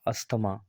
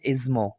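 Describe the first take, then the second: First: The 'th' sound in the middle is pronounced. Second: The 'th' sound in the middle is silent. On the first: The speaker calls it wrong. "जो कि actual में गलत है" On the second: The speaker calls it right. "ये silent है"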